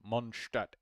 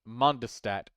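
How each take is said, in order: First: The name is said with German sounds. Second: The name is said with English sounds. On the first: "is the German, Deutsche pronunciation" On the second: "is like the English enunciation"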